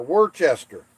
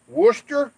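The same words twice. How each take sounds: First: Worcester said as "wor-CHESS-ter", falling; spelled-out Worcester. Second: Worcester said as "WUSS-ter", high and louder; British Worcester. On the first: Comparing with home, he says Worcester as "wor-chess-ter". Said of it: "'Cause over here". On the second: Asking chat which way, he tries Worcester as "wuss-ter". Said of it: "do you pronounce that". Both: Shown as a demonstration.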